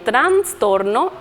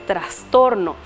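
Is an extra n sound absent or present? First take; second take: present; absent. First: An extra n sound is added before the s. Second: No extra n sound is added before the s. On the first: The speaker calls it wrong. "agregamos N en trastorno" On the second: The speaker calls it right. "en vez de decir correctamente"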